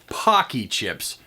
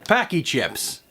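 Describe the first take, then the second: First: The first vowel sounds like the one in 'pock'. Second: The first vowel sounds like the one in 'pack'. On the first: The speaker calls it right. "That's pronounced Pocky chips" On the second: The speaker calls it wrong. "My mistake"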